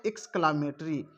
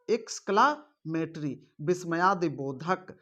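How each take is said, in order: First: Said in the usual way. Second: exclamatory said slowly, syllable by syllable; slow, careful repeat. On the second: Shown as a demonstration. Teacher repeating the term slowly for students. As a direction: stretch out exclamatory so the class can copy it.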